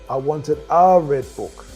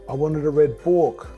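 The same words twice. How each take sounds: First: The stress is on the word a. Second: The stress is on the word book.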